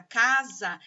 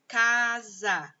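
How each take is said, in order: First: Said in the usual way. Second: "casa" drawn out as ca, za; syllable by syllable. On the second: Shown as a demonstration. Teacher forming a word from syllables, "casa" said syllable by syllable. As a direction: join the two syllables of "casa" slowly. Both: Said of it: "a sílaba K com a sílaba za".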